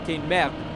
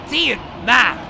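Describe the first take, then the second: First: It is said in a France French accent. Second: It is said aggressively in a Quebec French accent.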